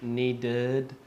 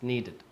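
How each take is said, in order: First: "needed" drawn out with a heavy, full second syllable; wrong pronunciation. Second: Said in the usual way. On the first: Shown as a demonstration. Teacher showing learners how not to say needed, overdone ending. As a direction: overdo the -ded of "needed", holding it long. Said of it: "it's not needed". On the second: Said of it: "It's needed".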